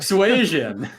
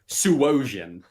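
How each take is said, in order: First: The vowel after 'sw' sounds like 'a'. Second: The vowel after 'sw' sounds like 'o'. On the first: The speaker calls it right. "It is in fact an A" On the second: The speaker calls it wrong. "that is not an O"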